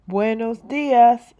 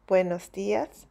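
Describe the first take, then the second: First: Loud slow greeting; called out. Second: Said in the usual way. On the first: Acted. Shopkeeper calling out, loud. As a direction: call it across the street. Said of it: "Buenos dias, Spanish".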